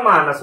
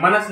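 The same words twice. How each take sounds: First: मानस with a long first vowel, "maa-nas"; correct pronunciation. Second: मनस with a short first vowel, "ma-nas"; wrong pronunciation. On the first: Teacher giving students the right word, long "maanas". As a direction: stretch the "aa" in मानस. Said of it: "होता है". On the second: Teacher rejecting the misspelt word, short "manas". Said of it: "नहीं होता". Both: Shown as a demonstration.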